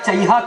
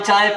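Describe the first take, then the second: First: The word is stretched with an added 'ha' sound. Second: The word is said as a short 'chai'. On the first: This is how vendors speak beyond Lucknow. "जैसे ही लखनऊ से आगे बढ़े तो वो चाय की जगह कहता है" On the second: This is how vendors speak around Lucknow. "हम लोग जब तक लखनऊ तक रहते हैं तो ट्रेन में जो आता है चाय पानी बेचने तो कहता है"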